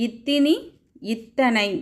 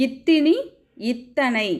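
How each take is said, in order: Both takes have the same delivery.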